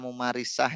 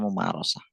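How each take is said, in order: First: The vowel after r is an i sound. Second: The vowel after r is an o sound. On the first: The speaker calls it wrong. "kata mumarisah ya" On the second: The speaker calls it right. "Tadi harusnya mumarosah"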